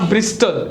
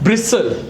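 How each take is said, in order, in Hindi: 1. बीच में T ध्वनि का उच्चारण होता है। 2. बीच में T ध्वनि मौन रहती है। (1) "not ब्रिस्टल" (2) "the टी is silent"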